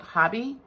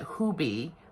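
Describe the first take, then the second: First: The first vowel sounds like in 'hob'. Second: The first vowel sounds like in 'hoo'. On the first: The speaker calls it wrong. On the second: The speaker calls it right.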